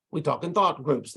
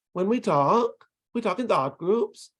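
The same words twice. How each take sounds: First: "We talk in thought groups" with the voice going down on "groups"; falling intonation. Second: "When we talk, we talk in thought groups" rising on "talk" and "groups"; constant rising intonation. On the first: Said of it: "the voice goes down almost all the time". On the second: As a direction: end every group, "talk" and "groups", on an upward lift like a question. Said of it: "you get this constant rising intonation". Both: Shown as a demonstration.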